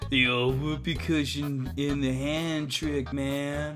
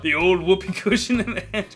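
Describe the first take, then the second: First: It is said in a stoner voice. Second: It is said in a normal voice.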